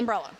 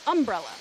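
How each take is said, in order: First: The first syllable 'um' carries no special emphasis. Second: The first syllable 'um' carries heavy emphasis. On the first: This is how people from Seattle say it. "there's no emphasis on the uh of umbrella" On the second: This is how people in the Midwest say it. "there's more emphasis on the word um for some reason"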